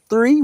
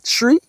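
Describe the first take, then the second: First: The word begins with a 'th' sound. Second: The word begins with a plain 't' sound. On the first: "instead of three" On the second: "We will say tree"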